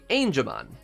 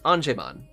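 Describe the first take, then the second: First: The first part sounds like the English 'angel'. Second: The first part is read like a Japanese word. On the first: The speaker calls it right. "as in angel" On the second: The speaker calls it wrong. "not Angemon, as I keep saying"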